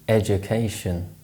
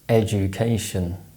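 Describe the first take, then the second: First: The unstressed vowel is reduced to a schwa. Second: The unstressed vowel is a short full oo sound.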